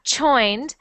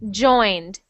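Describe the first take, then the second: First: The first sound is like SH. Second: The first sound is a clear J. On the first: The speaker calls it wrong. "I'm hearing joined almost like an S H" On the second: The speaker calls it right. "I want it to sound like J, like a G"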